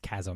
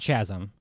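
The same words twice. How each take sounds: First: The word begins with a k sound. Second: The word begins with a ch sound. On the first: The speaker calls it right. "which is why you know it's chasm" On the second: The speaker calls it wrong. "it's not chasm"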